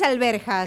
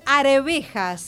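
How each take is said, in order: First: An l comes first, and the r after b. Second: The r comes first, then the v sound. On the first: The speaker calls it wrong. "No es alberjas" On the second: The speaker calls it right. "a los chicos les cuesta un poco es arvejas"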